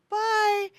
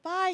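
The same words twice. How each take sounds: First: High, bright-hearted imitated child's bye; long, high, cheery mock farewell; happy child's goodbye. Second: Parent's bye with sadness tucked inside; restrained mock farewell; held-back goodbye. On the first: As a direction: imitate an oblivious, happy kid calling bye. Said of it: "she was so happy". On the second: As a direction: say bye while trying not to cry. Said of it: "so sad inside".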